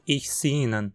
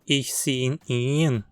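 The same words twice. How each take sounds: First: The pronoun is said in a weak, reduced form. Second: The pronoun is said in its full form. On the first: "costuma ser falada como" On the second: "Uma frase como"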